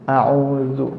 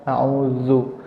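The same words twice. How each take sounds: No difference in how they are said.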